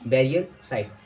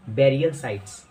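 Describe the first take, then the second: No difference in how they are said.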